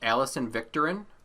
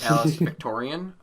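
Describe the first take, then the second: First: The surname ends with a short 'rin' sound. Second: The surname ends with a 'ree-an' sound. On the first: The speaker calls it right. "her name is actually pronounced" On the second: The speaker calls it wrong.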